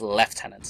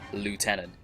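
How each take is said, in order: First: It is said the British way, lef-tenant. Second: It is said the American way, loo-tenant. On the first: The speaker calls it right. "It's lieutenant" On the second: The speaker calls it wrong. "you do not have him say lieutenant"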